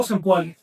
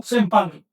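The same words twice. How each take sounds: First: "Sempoali" given as the word you do not use for people; name the wrong term for the class. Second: "Sempantli" given as the correct word for people; name the right term for the class. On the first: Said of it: "no digo". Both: Shown as a demonstration.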